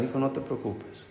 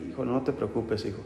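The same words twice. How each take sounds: First: Gentle quiet "Hijo, no te preocupes"; soft reassuring parent. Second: Quiet tender "Hijo, no te preocupes, hijo"; soft reassuring parent. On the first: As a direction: hush him kindly. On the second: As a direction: comfort him gently. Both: Retold or imitated. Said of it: "Que nuestros padres dijeran".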